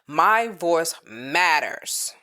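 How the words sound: It is said with sassy attitude.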